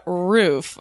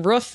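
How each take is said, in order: First: "roof" with the oo of food; long-oo pronunciation. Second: "roof" as ruhf, the vowel of book; short-oo pronunciation. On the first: Guest answering the quiz, "roof" with long oo. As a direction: say "roof" long, rhyming with proof. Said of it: "do you say roof or roof". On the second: Guest citing grandmother's way, "roof" with short vowel. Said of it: "my grandmother talks like that". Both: Shown as a demonstration.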